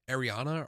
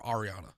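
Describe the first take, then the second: First: Ariana starting "air", as in "Air-ee-ana"; first variant pronunciation. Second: Ariana starting "ar", as in "Ar-ee-ah-na"; second variant pronunciation. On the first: Host comparing name variants, Ariana starting with "air". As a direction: say Ariana with a flat first vowel. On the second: Host comparing name variants, Ariana starting with "ar". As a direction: say Ariana with an open "ah" first vowel. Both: Shown as a demonstration. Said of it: "Just like how it's".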